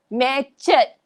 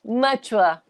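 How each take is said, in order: First: The word ends in a short 'et' sound. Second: The word ends in a 'ua' sound. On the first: The speaker calls it wrong. "that is so wrong" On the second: The speaker calls it right. "there's a ua sound"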